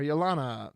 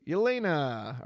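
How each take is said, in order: First: "Yelana" with an "ah" in the middle; alternative pronunciation. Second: "Yelena" with a long "ay" in the middle; alternative pronunciation. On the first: Streamer offering another reading of the name, "Yelana" said yeh-LAH-nah. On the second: Streamer trying out a card name, "Yelena" said yeh-LAY-nah. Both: Shown as a demonstration. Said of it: "or Yelana".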